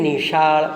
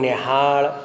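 First: The middle consonant is a 'sh' sound. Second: The middle consonant is an 'h' sound.

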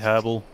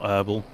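First: The word is said in a non-American way. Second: The word is said in an American way. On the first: The speaker calls it right. "they should say herbal" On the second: The speaker calls it wrong. "not herbal. It's most definitely an American doing an accent"

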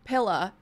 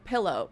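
First: The word ends in a short 'uh' sound. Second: The word ends in a full 'oh' sound. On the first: "I come from a place where they say pilla" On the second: "instead of pillow"

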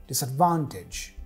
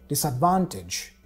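No difference in how they are said.

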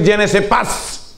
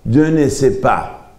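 First: The final s of pas is pronounced. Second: The final s of pas is silent. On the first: The speaker calls it wrong. "Yo sí quiero pronunciarla" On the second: The speaker calls it right. "pero la s no suena"

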